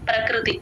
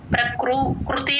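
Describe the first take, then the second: First: The 'kru' syllable is said lightly without stress. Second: The 'kru' syllable is stressed and doubled. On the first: The speaker calls it right. "చాలా light గా చెప్పాలి అస్సలు stress" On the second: The speaker calls it wrong. "అనకూడదు"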